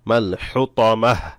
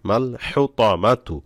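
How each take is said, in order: First: The word ends with a stopped h sound. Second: The word ends with a full -tu ending. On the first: The reader stops at this word. "এখানে ওয়াকফ করলে" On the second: The reading continues without stopping. "তা পেশ তু"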